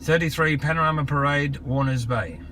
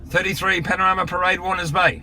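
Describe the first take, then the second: First: The address is spoken a little more slowly. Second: The address is spoken very quickly. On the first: "I'll do it just a little bit slower" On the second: "I said that really quickly"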